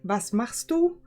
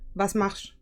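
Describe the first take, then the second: First: Each word is said separately, standard German. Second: Words run together fluidly, in Swabian.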